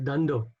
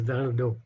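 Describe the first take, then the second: First: Both d sounds are said like English d. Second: The first d is soft, the second hard. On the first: The speaker calls it wrong. "normally people will pronounce it as, as dando" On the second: The speaker calls it right. "the first D without the dot underneath is a soft D... when there's a dot underneath, there's a hard D"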